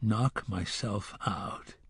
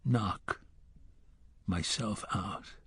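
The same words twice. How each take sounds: First: Softer and slow, turning the words over; the gunslinger quietly repeating the boy's words to himself; inner thought. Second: Softer, with a long pause after "Knock" before "myself out"; the gunslinger slowly mulling over the boy's words; broken inner thought. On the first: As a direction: mull it over under your breath. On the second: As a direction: let "Knock" hang, then drop "myself out" softly. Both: A narrator's reading. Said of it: "he thought".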